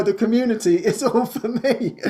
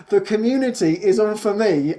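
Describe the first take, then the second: First: All in "the community is all for me" stressed, laughing and higher. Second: Said in the usual way. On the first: Real, not acted. Correcting Francis by stressing "all", laughing. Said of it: "I'm sorry to say, Francis". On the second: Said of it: "Francis said".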